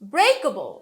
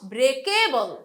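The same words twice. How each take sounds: First: The stress is on the first syllable. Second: The stress is on a later syllable. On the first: The speaker calls it right. "break থেকে breakable" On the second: The speaker calls it wrong. "not breakable"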